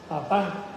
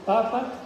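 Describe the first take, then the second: First: The stress is on the last syllable. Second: The stress is on the first syllable. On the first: It means dad. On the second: It names the pope.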